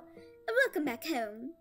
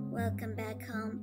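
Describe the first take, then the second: First: It is said in a French accent. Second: It is said in a scary voice.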